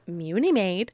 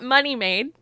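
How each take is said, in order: First: The first word sounds like 'Muni'. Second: The first word sounds like 'money'. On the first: The speaker calls it right. "it's Muni Made" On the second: The speaker calls it wrong. "it's not money made. Contrary to how some people pronounce it"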